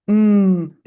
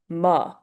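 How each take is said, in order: First: The consonant is clipped with no vowel. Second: An uh vowel follows the consonant. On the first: The speaker calls it right. "here's the correct way to say them" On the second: The speaker calls it wrong. "incorrect sounds like this"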